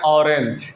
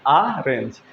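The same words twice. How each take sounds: First: ऑरेंज said "ornge" with an open o, as in "awe"; ऑरेंज, first vowel an open "aw"; au reading. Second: ऑरेंज said "arenj" with an open a, as in "father"; ऑरेंज, first vowel a broad "ah"; aa reading. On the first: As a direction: say ऑरेंज with an aw at the start. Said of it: "कई जगह इसे औ भी पढ़ते हैं". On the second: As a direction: say ऑरेंज with an ah at the start. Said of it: "तो इसे आ भी पढ़ते हैं". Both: Shown as a demonstration.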